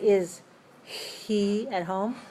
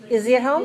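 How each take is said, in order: First: The H at the start of 'he' is pronounced. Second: The H is dropped, linking 'is' into 'he'. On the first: "But I don't have to say" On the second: "I don't pronounce the H. I just make the Z"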